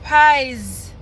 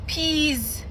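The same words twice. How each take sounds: First: Pies, said like pie with an s; sounding out pronunciation. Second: Peas, a long ee with a z; sounding out pronunciation. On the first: Reader testing the spelling PIIS aloud as "Pies". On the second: Reader testing the spelling PIIS aloud as "Peas". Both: Shown as a demonstration. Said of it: "P I I S".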